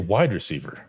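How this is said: The stress falls on the word wide.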